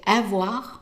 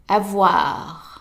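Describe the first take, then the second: First: The stress is on the first syllable. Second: The stress is on the second syllable. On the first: The speaker calls it wrong. "make sure that you don't say avoir" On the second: The speaker calls it right. "the stress is on the wa. It's longer and louder"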